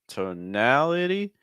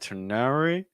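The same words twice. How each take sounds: First: The vowels are separated with a dark L. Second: The vowels blur together without a dark L. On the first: The speaker calls it right. "we need a dark L" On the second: The speaker calls it wrong. "I'm hearing tonality"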